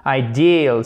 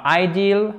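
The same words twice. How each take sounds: First: IDEAL with a long, strong «DIIL»; i long accentué. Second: IDEAL stressed on the first syllable, «AÏ-dil»; mauvais accent tonique. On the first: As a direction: stretch the second syllable of IDEAL. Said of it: "c'est un I long". («ideal», i long accentué sur «deal») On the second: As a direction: hit the AÏ of IDEAL, short ending. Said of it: "Donc c'est pas ideal". («ideal» accentué à tort sur «aï») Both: Shown as a demonstration.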